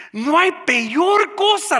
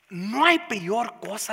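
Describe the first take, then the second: First: Higher, louder and slow, hammering each word; preaching loud. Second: Said in the usual way. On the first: Shown as a demonstration. Pastor repeating his point to the congregation, preaching loud. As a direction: repeat it and let it ring out to the church.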